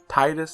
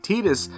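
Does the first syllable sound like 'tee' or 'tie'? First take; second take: tie; tee. First: The first syllable sounds like 'tide'. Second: The first syllable sounds like 'tedious'. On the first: "a water Tide Titus" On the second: "Titus sounds like tedious"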